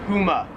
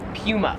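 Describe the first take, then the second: First: It is said with an American pronunciation. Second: It is said with an Australian pronunciation. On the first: "Number three is Puma" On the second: "as they would say in Australia"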